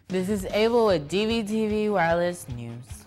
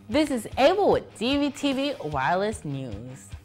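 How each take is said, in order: First: It is said in a flat, unenthusiastic way. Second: It is said in a lively, enthusiastic way. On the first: The speaker calls it wrong. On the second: The speaker calls it right.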